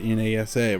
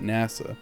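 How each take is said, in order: First: It is spelled out letter by letter. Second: It is said as a single word. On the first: "We don't call it" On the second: "we call it"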